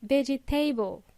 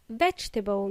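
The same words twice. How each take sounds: First: "vegetable" as veh-jee-TAY-bul; four syllables in "vegetable", ending like table; mispronounced vegetable. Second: "vegetable" as VEJ-tuh-bul; three syllables in "vegetable", stress on the first; correct vegetable. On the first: Teacher showing learners the mistake, vegetable as veggie-table. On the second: Teacher modelling for learners, vegetable as vej-tuh-bul. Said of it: "It is pronounced vegetable". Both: Shown as a demonstration.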